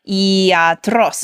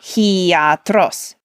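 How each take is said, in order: First: The word starts directly with a vowel. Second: The word starts with an h sound. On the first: The speaker calls it right. "has the smooth breathing" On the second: The speaker calls it wrong. "not hiatros"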